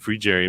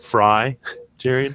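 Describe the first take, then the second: First: The first syllable sounds like 'free'. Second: The first syllable sounds like 'fry'. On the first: "which I believe is, is how it is pronounced" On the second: "I believe you could also pronounce that"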